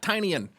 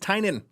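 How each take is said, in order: First: A 'y' glide comes before the last syllable. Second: No 'y' glide comes before the last syllable. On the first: The speaker calls it wrong. "It's not Tynyan" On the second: The speaker calls it right. "It's Tynan"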